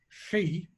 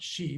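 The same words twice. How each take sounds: First: It begins with a lateral hissing sound. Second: It begins with a plain sh sound. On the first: The speaker calls it right. "pronounced like this, she ... It's called a lateral fricative" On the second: The speaker calls it wrong. "not she, but very close"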